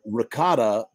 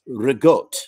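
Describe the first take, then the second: First: The word ends with a full final vowel. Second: The final vowel is dropped and consonants change. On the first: "ricotta becomes" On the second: "Final syllables are deleted. Certain consonants are swapped with others"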